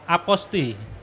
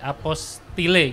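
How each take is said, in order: First: The word ends without any 'le' sound. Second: The word ends with an audible 'le' sound. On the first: The speaker calls it right. "cara baca yang benar itu adalah aposti" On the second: The speaker calls it wrong. "apostile gitu kalau dibaca ya"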